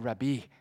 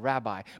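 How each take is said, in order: First: The word is said with a fawning, changed inflection. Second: The word is said in a plain, ordinary way. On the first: The speaker is flattering and honoring the listener. "but he said Rabbi. ... he's sucking up" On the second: It is a simple form of address. "He could have just said Rabbi"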